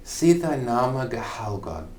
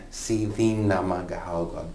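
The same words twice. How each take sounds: First: "See thy name gehelgad" with "thy" as in modern English; Old English reading. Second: "thine" said as "theen" in "see thine name gehelgad"; alternative reading. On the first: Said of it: "Or you'll also hear". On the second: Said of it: "Or you'll also hear, see thine". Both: Shown as a demonstration.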